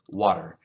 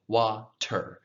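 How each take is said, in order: First: The middle consonant is a soft D-like flap. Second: The middle consonant is a drawn-out clear T. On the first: "a little bit back, a little softer" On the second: "I drew out the T. I said water"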